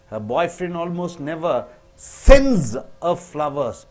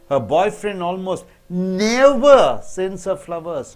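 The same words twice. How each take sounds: First: The word sends is stressed. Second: The word never is stressed. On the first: He does not send flowers but plants them in her garden. "When you stress on sends" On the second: He does not send flowers on any occasion. "When you stress so never"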